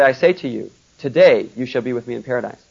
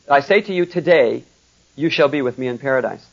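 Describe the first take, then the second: First: The pause comes before "today". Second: The pause comes after "today".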